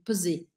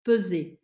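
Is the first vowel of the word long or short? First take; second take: short; short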